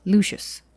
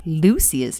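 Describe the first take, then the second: First: "Lucius" said LOO-shus; preferred pronunciation of Lucius. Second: "Lucius" said LOO-see-us; rejected pronunciation of Lucius. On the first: Co-host correcting back to their own Lucius, SH pronunciation. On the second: Co-host testing the audiobook's Lucius before rejecting it, S pronunciation. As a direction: try "Lucius" with an S sound in the middle. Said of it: "Well, that's just not right". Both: Shown as a demonstration.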